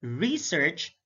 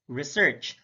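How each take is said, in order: First: REsearch, with a long stressed REE; careful demo of REsearch; stress on first syllable. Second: ReSEARCH, second syllable stressed; careful demo of reSEARCH. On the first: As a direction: hit the RE in "Research". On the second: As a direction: hit the SEARCH in "research". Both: Shown as a demonstration. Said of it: "slight difference in terms of sound".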